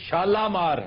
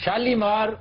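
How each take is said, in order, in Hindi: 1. दूसरे अक्षर में लंबा 'ah' स्वर है। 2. दूसरे अक्षर में लंबा 'ee' स्वर है। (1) "ये शालामार है" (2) "शालीमार गलत है"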